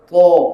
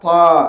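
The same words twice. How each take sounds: First: The consonant sounds heavy, full and deep. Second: The consonant sounds light, thin and plain. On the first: "Bunyi dia ta" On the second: "Kalau bunyi merendah"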